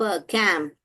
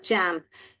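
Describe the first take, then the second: First: The word begins with a k sound. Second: The word begins with a ch sound. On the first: The speaker calls it wrong. "ये च को क जैसा पढ़ेंगे" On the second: The speaker calls it right. "ये ही सही है"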